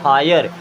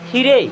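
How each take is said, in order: First: The first vowel sounds like 'eye'. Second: The first vowel sounds like 'ee'. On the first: The speaker calls it right. "क्या पढ़ेंगे? हायर" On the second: The speaker calls it wrong. "हीरे नहीं पढ़ेंगे"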